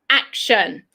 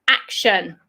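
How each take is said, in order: First: It is said the British way, pitch going down. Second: It is said the British way, pitch going down.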